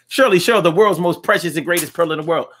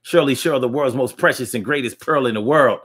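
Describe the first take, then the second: First: High announcer voice. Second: Said in the usual way. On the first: Shown as a demonstration. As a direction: sing out the name high and bright like a host. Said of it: "Are you turned on by voices?".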